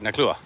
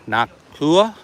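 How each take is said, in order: First: The name is said at a quick pace. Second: The name is said at a slower pace. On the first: The speaker calls it right. "if I say it fast, I might sound right" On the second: The speaker calls it wrong. "I'm probably saying it wrong"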